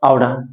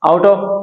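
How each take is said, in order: First: The words are reduced and blended into one. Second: Both words are said fully and separately. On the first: "আমরা বলতে পারি আউডা" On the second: "আউট অফ থেকে"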